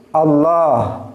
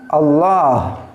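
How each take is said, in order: No difference in how they are said.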